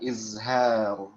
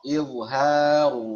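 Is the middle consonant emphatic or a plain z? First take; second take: plain z; emphatic. First: The middle consonant is a plain z sound. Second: The middle consonant is the emphatic dha sound. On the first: The speaker calls it wrong. "bukan izhar ya, pakai dha bukan pakai za, zai" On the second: The speaker calls it right. "pakai dha, bukan pakai zai, melainkan dha"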